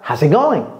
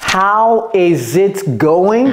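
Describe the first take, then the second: First: Said quickly, with words run together. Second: Said slowly, each word fully pronounced. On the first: The speaker calls it right. "Comment est-ce qu'un Américain va dire ça?" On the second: The speaker calls it wrong. "vous n'allez jamais entendre un Américain le dire si lentement"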